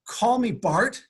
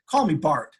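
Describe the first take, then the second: First: Slow, much higher, rising in amazement; stunned disbelief. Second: Said in the usual way. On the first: Retold or imitated. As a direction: repeat it like you can't believe it. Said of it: "I about fell off my chair". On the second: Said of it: "He said".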